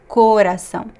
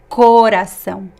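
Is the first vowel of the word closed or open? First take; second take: closed; closed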